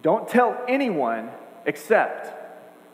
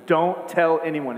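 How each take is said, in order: First: Slow, drawn out, hanging on "except"; stressing except. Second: Slow, firm and a little louder; stern command. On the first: Shown as a demonstration. Preacher pointing out the one exception, slow and drawn out. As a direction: stretch every word and lift "except". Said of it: "See that?". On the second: Retold or imitated. Preacher voicing Jesus' strict order to the healed man, sternly. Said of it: "He says it sternly".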